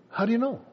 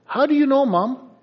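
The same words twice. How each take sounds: First: Said in the usual way. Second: Put-on high, astonished kid's question; a kid caught out and baffled; amazed child. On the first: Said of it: "speaker repeats child's line". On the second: Child amazed mom knows.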